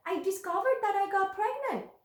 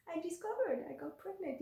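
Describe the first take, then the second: First: Higher, bright announcement of the news; excited. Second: Softer, hushed repeat, letting it sink in; quiet. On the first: Telling viewers her big news, excited and lifted. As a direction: lift it up with joy. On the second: Repeating her news to viewers, quiet and awed. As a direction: say it again softly to yourself. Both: Real, not acted.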